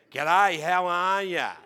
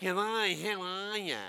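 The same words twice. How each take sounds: First: Loud, slow, broad Australian twang; Australian accent. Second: Nasal Australian accent. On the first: Retold or imitated. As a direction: drag out a grating Australian greeting. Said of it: "that accent". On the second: Shown as a demonstration. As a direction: say it through the nostrils, broad Australian. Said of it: "through the nostril they say it".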